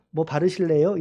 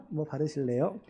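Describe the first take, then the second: First: Pun. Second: Sheepish pun. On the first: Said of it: "갑자기 뭐가 생각났어". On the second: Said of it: "이런 거 안 하려고 했는데". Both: Pretend.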